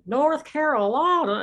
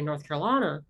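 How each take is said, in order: First: It is said in an exaggerated deep Southern accent. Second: It is said in a mild Appalachian accent. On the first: "That's not my accent. My accent is not that, deep South accent" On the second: "I didn't even say it like that"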